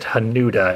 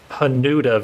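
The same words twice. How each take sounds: First: The middle vowel is a long liquid 'yu'. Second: The middle vowel is a plain short 'u'. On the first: The speaker calls it right. "No Blood Curse pronounces it Hanuda" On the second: The speaker calls it wrong. "I keep saying it wrong"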